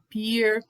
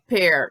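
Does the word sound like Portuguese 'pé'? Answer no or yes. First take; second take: no; yes. First: The vowel does not sound like Portuguese 'pé'. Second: The vowel sounds like Portuguese 'pé'. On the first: The speaker calls it wrong. "muita gente fala pear" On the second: The speaker calls it right. "mas é pear. Então lembra da pronúncia de pé"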